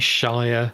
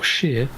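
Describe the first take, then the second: First: The ending rhymes with 'fire'. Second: The ending rhymes with 'near'. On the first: The speaker calls it wrong. "If you say Shire, you know, it's not great" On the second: The speaker calls it right. "or sheer"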